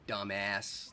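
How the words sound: It is said with an American vowel. "That's how you guys say it"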